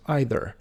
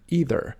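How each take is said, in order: First: Either said EYE-ther; common mispronunciation. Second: Either said EE-ther; correct pronunciation. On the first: Teacher showing viewers the wrong way. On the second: Teacher showing viewers the right way. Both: Shown as a demonstration. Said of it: "often mispronounced as either".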